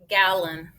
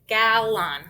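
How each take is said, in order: First: The second syllable has a reduced schwa vowel. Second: The second syllable has a full, clear vowel. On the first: The speaker calls it right. "It got schwab" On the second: The speaker calls it wrong.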